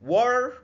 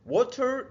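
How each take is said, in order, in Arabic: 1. بيتقال بلكنة أمريكية. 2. بيتقال بلكنة بريطانية. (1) "بالامريكان" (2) "دي بالبريتش"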